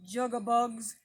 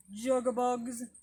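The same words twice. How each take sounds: First: A slightly louder, croaky bullfrog imitation; bullfrog call. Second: Slower, drawn-out bullfrog croak; slow bullfrog call. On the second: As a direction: stretch the croak out slowly like a bullfrog. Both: Shown as a demonstration. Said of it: "Some people think that it sounds like".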